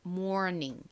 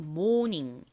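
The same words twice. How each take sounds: First: It is said with an American English pronunciation. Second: It is said with a Korean-style pronunciation. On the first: "실제 미국식 원어 발음으로는" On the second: "한국식으로는"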